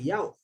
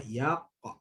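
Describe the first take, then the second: First: Yaq with the qaf closed off and no vowel; stopped yaq; wrong clipped yaq. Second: Yaqa with the qaf bounced into a short a; bouncing yaqa; correct yaqa. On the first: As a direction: cut yaq short after the qaf. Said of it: "Kita tak nak yaq". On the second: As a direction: let the qaf spring into yaqa. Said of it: "kita nak yaqa". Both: Shown as a demonstration.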